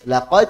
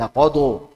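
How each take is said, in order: First: The word ends crisply on the d sound. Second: An extra u vowel follows the d. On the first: The speaker calls it right. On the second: The speaker calls it wrong.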